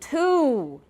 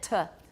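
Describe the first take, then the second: First: The word is said in its full form. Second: The word is said in its reduced form. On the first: The word stands alone. "if we say to by itself" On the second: The word is inside a sentence. "It will be reduced in a sentence"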